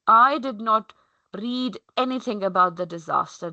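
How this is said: The stress falls on the word I. The focus is on who did not read it. "my stress is on the I"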